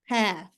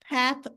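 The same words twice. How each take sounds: First: The final th is replaced by another sound. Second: The word ends with a th sound. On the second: This is the general pronunciation.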